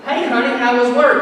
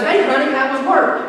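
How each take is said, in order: First: A hint of a sweet wife, a bit higher; lightly sugary wife asking about the day; wife greeting her husband after work, lightly sweet. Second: Lightly voiced sweet wife, a bit higher; sugary wife asking about his day; wife greeting her husband home from work, lightly sweet. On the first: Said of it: "when your wife says". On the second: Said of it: "his wife goes".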